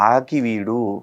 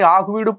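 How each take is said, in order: First: The second syllable has an 'i' vowel. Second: The second syllable has a 'u' vowel. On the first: The speaker calls it right. "ఆకు వీడో పువ్వు వీడో కాదు, ఆకి వీడు" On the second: The speaker calls it wrong. "ఆకు వీడు పువ్వు వీడు అని పేరు మారుతుంది నువ్వు"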